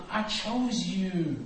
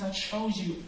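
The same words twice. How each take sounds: First: Slow, each word weighted; slow emphatic quote. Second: Said in the usual way. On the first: Shown as a demonstration. Preacher stressing Jesus' words, slow and weighty. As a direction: let "I chose you" land slowly. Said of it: "Jesus says". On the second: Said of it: "he says".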